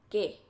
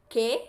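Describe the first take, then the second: First: Said in the usual way. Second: "qué" asked with a rising question tune. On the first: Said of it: "with no accent and no question mark". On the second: Shown as a demonstration. Teacher shows learners the asked form, a rising question. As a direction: lift "qué" up at the end like a real question. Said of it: "with question marks and accent".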